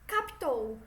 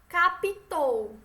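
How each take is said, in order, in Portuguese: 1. Não se ouve vogal nenhuma entre o p e o t. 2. Ouve-se uma vogal extra entre o p e o t. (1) "O certo é o quê?" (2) "Isso é a pronúncia errada"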